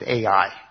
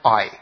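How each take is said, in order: First: The name is said with two syllables. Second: The name is said as one syllable, like 'eye'. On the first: The speaker calls it wrong. "I've always pronounced it Ai" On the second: The speaker calls it right. "It's pronounced I"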